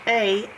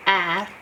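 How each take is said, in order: First: The vowel in "a" said as a long ay sound, the wrong way. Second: "ah." said as a clear short a, like in path; short a sound. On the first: Teacher showing pupils the wrong vowel, a long ay. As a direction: say "a" as the long ay to show the mistake. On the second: Teacher giving pupils the right short vowel, a clear ah. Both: Shown as a demonstration. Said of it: "not a, ah".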